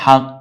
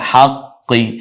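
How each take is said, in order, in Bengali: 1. শব্দটি ব্যঞ্জনে শেষ হয়, কোনো স্বরধ্বনি ছাড়া। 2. শব্দটি শেষ হয় একটি শেষের ই-স্বর দিয়ে। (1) "থামলে হাক" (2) "আর যদি বলি তাহলে হাক্কি"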